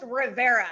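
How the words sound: The name is said with an English pronunciation.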